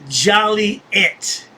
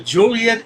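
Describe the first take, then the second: First: The name begins like the word 'jolly'. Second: The name does not begin like 'jolly'.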